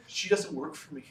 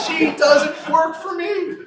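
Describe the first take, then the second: First: Said in the usual way. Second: Slow, loud, higher, laughing through it; laughing shout. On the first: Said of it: "And know what he said?". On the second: Retold or imitated. Lawyer repeating the governor's line, laughing loudly. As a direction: shout the punchline while cracking up.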